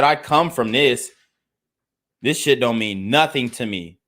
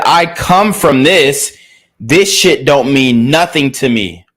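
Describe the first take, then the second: First: Said in the usual way. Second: Louder, slow, every word leaned on; loud slow retold quote. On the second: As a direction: hammer home his street attitude, slowly. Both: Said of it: "He said".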